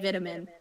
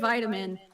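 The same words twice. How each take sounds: First: It is said with a non-American pronunciation. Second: It is said with an American pronunciation. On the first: "I've heard a lot of other people say vitamin" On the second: "Americans say it vitamin"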